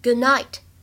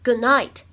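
The two takes are said the same way.

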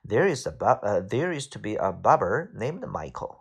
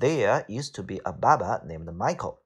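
First: The sentence is said in an American accent. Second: The sentence is said in a British accent. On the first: "美式发音是" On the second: "这就是英式发音"

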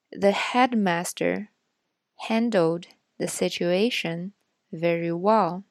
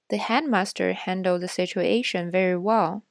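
First: The sentence is read more slowly. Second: The sentence is read at normal speed. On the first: "再读一遍慢一点的" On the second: "我会先读一遍正常语速的"

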